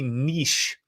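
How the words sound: The word is said the European way. "niche if you're in Europe"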